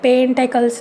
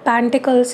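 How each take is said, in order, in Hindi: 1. पहला स्वर 'e' है और बीच का 'e'। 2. पहला स्वर 'a' है और बीच का 'i'। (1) "नहीं होता है" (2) "नहीं होता है"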